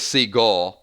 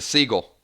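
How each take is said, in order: First: Said in the usual way. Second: Southern seagull. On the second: Shown as a demonstration. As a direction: drawl seagull lightly the Southern way. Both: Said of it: "if you're from the South".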